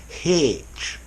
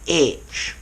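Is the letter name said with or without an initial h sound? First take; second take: with; without. First: The letter name starts with an h sound. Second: The letter name starts with no h sound. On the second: The speaker is Protestant. "The Protestants say"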